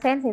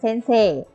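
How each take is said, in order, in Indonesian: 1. Vokal terakhirnya pendek. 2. Vokal terakhirnya dipanjangkan. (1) "tapi bukan" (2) "bacanya sensei, panjang ya"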